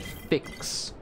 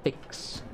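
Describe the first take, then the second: First: "fix" drawn out slowly and distinctly; careful enunciation. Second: "Fix" softly, almost all breath, crisp final x; hushed repeat. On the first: Gamer clarifying the word "fix" was said, careful enunciation. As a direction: spell out "fix" by sound, slowly. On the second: Gamer repeating "Fix" to be clear, hushed. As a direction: repeat "Fix" in a near whisper. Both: Shown as a demonstration. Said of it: "Yes, I said fix".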